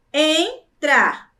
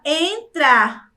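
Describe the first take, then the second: First: "entrar" split into two separate syllables. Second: Said in the usual way. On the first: Shown as a demonstration. Teacher showing pupils two syllables, clearly separated. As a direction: pause between the syllables of "entrar". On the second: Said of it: "é a palavra".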